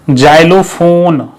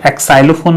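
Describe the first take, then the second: First: The word begins with a 'z' sound. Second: The word begins with an 'eks' sound. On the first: The speaker calls it right. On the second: The speaker calls it wrong.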